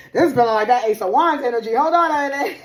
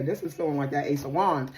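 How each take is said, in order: First: Real excitement, loud, high and fast; excited outburst. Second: Said in the usual way. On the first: Real, not acted. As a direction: burst out loud and high, breaking into a laugh. Excited repeat of same words.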